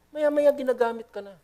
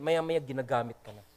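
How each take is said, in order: First: Maya-maya ginagamit ka na repeated much higher; higher, emphatic repeat of maya-maya ginagamit ka na; raised repeat. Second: Said in the usual way. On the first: Shown as a demonstration. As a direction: lift the repeat of maya-maya ginagamit ka na well above the first. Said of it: "repeated much higher". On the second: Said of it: "first take, low and soft".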